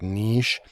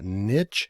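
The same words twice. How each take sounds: First: It has a long ee vowel and ends in sh. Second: It has a short i vowel and ends in ch. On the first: "you can spell it out like N E E S H if that's how you pronounce it, like niche" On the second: "N I T uh, C H"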